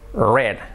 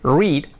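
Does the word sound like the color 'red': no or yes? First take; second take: yes; no. First: The word sounds like 'red'. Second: The word does not sound like 'red'. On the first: It refers to the past. "en pasado es is regular y se pronuncia read. Like the color" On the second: It refers to the present. "En presente es read"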